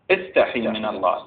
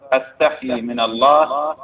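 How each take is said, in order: First: استحي opening on an "i" vowel; imperative reading. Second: أستحي opening on a clear "a" vowel; first-person reading. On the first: Teacher retrying the quoted hadith as a command, استحي said "istahi". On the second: Teacher trying one reading of a quoted hadith, أستحي said "astahi". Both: Shown as a demonstration. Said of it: "استحي أو أستحي".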